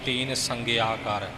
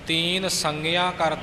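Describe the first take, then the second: First: The middle consonant is a hard g sound. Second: The middle consonant is a nasal ng sound. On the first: The speaker calls it wrong. "ਸੰਗਿਆ ਬੋਲ ਜਾਂਦੇ ਨੇ ਆਮ ਪਾਠੀ" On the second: The speaker calls it right. "ਗੱਗੇ ਦਾ ਉਚਾਰਨ ਨਹੀਂ ਬਲਕਿ ਨੰਗੇ ਦਾ ਉਚਾਰਨ ਹੈ"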